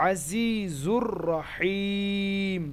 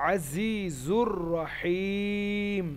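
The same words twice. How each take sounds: Both takes have the same delivery.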